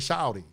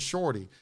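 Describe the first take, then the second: First: It is said in a southern US accent. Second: It is said in a northern US accent.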